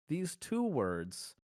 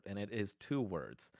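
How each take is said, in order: First: "two" stretched and leaned on, words spaced out; dramatic reveal of "two" with a pause-laden pace; slow stress on two. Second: Said in the usual way. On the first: Shown as a demonstration. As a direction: land "These two words" slowly, hitting "two".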